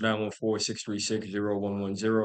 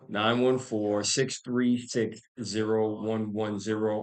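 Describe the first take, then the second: First: The number is said at normal speed. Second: The number is said more slowly.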